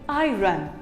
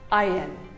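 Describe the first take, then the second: First: The r is sounded before the n. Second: It sounds like eye-earn, no r before n. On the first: The speaker calls it wrong. "Most of it call it iron. Well, it is wrong" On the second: The speaker calls it right. "You can even say it as I earn"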